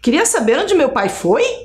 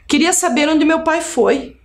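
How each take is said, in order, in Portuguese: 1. A voz sobe no final, como numa pergunta. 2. A voz cai no final, como numa afirmação. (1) "Se eu colocasse assim" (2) "Eu estou perguntando sem fazer tom de voz de pergunta"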